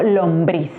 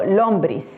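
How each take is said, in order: First: "lombriz" stressed on the last syllable, lomBRIZ; stress on BRIZ. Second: "lombriz" wrongly stressed on the first syllable, LOMbriz; stress on LOM. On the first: Teacher showing learners the correct accent, stressing lomBRIZ. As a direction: land the weight on BRIZ in "lombriz". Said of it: "yo digo". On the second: Teacher showing learners the wrong accent, stressing LOMbriz. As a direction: hit LOM and let briz drop in "lombriz". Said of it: "porque yo no digo". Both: Shown as a demonstration.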